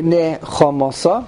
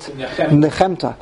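First: The word ends with a 'sa' sound. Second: The word ends with a 'ta' sound. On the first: "They're probably right" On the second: "I always used to pronounce it Nechemta"

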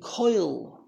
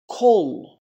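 First: The vowel glides into a y sound. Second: The vowel is a plain o with no glide. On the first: This is the yeshiva-world reading tradition. "if you're from the yeshiva world who adds a yud to a cholam" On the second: This is the more traditional reading tradition. "If you're from the more traditional approach of reading the words, ... there is no yud"

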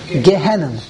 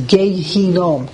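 First: The word ends with an open vowel. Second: The word ends with a closing m sound. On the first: This is the form most people commonly use. "The world, the Olam, says Gehenna" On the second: This is the original form of the name. "real way to pronounce, by the way, is Gehinom"

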